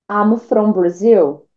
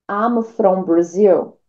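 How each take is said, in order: Both takes have the same delivery.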